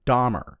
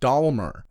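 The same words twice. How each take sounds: First: The name is said without an L sound. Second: The name is said with an L sound. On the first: The speaker calls it right. "not Dahmer" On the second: The speaker calls it wrong. "like there's an L in it"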